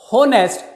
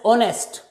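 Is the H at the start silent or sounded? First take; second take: sounded; silent. First: The word begins with an audible H sound. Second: The word begins directly with a vowel sound. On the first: The speaker calls it wrong. "it is never spoken as honest. If you speak it, pronounce it like honest, then you will never be able to fill in the correct article" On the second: The speaker calls it right. "H is silent. ... That's why it is pronounced as honest. Initial sound is O"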